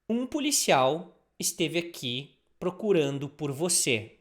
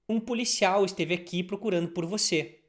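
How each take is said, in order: First: It is said at a normal, careful speed. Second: It is said a little faster.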